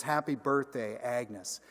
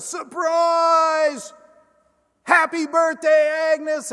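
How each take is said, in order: First: Said in the usual way. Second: Much higher and louder joyful yell; surprise shout. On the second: Retold or imitated. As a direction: shout it like a crowd springing a surprise. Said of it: "greeted with a shout of".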